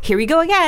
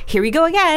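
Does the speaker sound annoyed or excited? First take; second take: excited; excited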